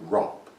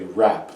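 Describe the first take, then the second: First: It is said with a posh, rounded vowel. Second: It is said with a plain, flat vowel.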